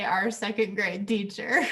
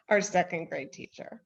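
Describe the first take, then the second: First: Light imitation of "our second grade teacher", "teacher" rising; gentle playful parroting of "our second grade teacher"; mock quoting. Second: "our second grade teacher" with a lift on "our"; "our" stressed, rising to "teacher"; tender emphasis on our. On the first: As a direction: echo her phrase teasingly, "teacher" lifted. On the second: Real, not acted. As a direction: lean on "our" as if she's family. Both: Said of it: "I love how you say".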